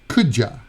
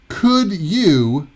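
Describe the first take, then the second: First: The second word is reduced to a weak ya. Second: The second word is a full you sound.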